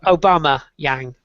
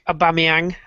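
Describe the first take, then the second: First: The surname is split like 'Obama Yang'. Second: The surname is said as one smooth name.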